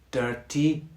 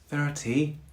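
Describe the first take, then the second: First: It begins with a hard D sound. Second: It begins with a soft, breathy TH sound. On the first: "try that with the D sound" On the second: "two examples with the soft T H sound"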